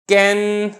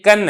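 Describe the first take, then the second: First: The vowel is fronted toward 'e'. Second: The vowel is a plain open 'a'. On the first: The speaker calls it wrong. "मैंने इमाला कर दिया, तो ये तरीका गलत है" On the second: The speaker calls it right. "अब ये कन है"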